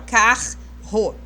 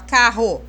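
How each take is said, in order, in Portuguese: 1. Os dois R são pronunciados separadamente. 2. O do meio soa como um R simples. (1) "Apesar de ter dois R's, a gente nunca fala carro" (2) "Parece que a gente está falando um R só"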